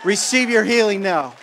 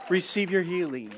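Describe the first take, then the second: First: High, loud, shouted command; loud preaching. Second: Level, gentle echo of the call. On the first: Preacher to the sick, a loud shouted call. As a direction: proclaim the healing at full force. Preaching, then repeated softer. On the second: Repeated after loud take. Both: Real, not acted.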